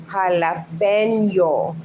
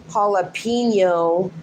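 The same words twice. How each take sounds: First: Jalapeno as ha-la-PEN-yo, Spanish accent, slow; Spanish pronunciation. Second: Jalapeno as hah-luh-PEEN-yo, slowly; anglicised pronunciation. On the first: Correcting Luann, jalapeno slowly in Spanish accent. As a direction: draw out jalapeno with pure Spanish vowels. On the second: Mocking the wrong way, jalapeno as hah-luh-PEEN-yo. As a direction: say jalapeno the English way, stretched PEEN. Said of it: "And it's not". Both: Shown as a demonstration.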